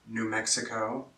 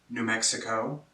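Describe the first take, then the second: The two takes are said the same way.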